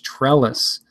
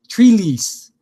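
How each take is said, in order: First: The first vowel is a short 'e' sound. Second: The first vowel is a long 'ee' sound. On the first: The speaker calls it right. "it's pronounced pretty much how it sounds" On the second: The speaker calls it wrong. "that's not how you pronounce it"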